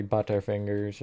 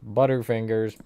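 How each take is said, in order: First: Badly faked British accent; British accent, half-hearted and unsure; attempted British accent. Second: Said in the usual way. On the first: Shown as a demonstration. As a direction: have a clumsy go at sounding British. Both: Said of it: "I can't do a British accent".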